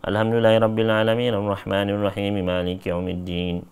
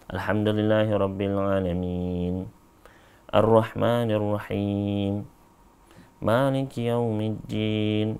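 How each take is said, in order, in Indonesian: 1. Ayat-ayatnya disambung tanpa jeda. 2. Ada jeda setelah setiap ayat. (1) "disambung langsung" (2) "Beliau berhenti setiap setiap berhenti ayat"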